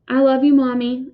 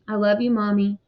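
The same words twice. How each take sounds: First: Put-on a slightly raised, earnest child's voice; mildly upset child saying goodbye; child's heartfelt goodbye. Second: Said in the usual way. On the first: A narrator's reading. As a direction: echo it with more feeling, a bit stronger. Younger brother echoes the goodbye.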